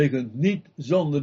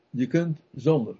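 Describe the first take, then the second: First: "niet" set apart and emphasised; stress on niet. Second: Said in the usual way. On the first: Real, not acted. Preacher correcting to listeners, stress on "niet". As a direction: lean firmly on the word "niet". Negation corrects the previous take.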